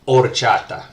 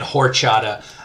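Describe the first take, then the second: First: The word begins with no H sound at all. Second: The word begins with an audible H sound. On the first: The speaker calls it right. "usually an H on the beginning of a Spanish uh, word uh, is going to be silent" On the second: The speaker calls it wrong. "don't make the mistake of sounding like a, uh, a gringo and saying horchata"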